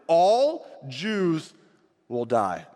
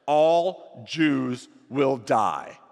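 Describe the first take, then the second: First: Grim decree repeated. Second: Grim decree. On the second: Reading the evil decree. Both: A narrator's reading.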